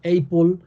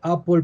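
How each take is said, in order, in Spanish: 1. Se dice con pronunciación con acento español. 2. Se dice con pronunciación nativa del inglés. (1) "una mala pronunciación del profesor" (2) "en lugar de decir"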